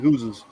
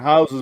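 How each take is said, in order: First: The word is said in a Canadian accent. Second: The word is said in a standard accent. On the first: This is how Canadians say it. "but in Canada they live in houses" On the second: This is how the rest of the world says it. "everybody else on the planet lives in houses"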